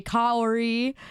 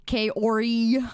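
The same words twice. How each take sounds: First: Kaori said as KAH-or-ee, slowly with a rising tune; Kaori as Kah-oh-ree; alternative way. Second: Kaori said as KAY-or-ee, English style; Kaori as Kay-oh-ree. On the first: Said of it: "or you say Kaori". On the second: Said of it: "in the most English way possible". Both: Shown as a demonstration.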